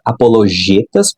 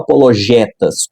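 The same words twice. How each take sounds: First: The stressed E is a closed vowel. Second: The stressed E is an open vowel. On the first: "com E fechado" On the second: "com E aberto"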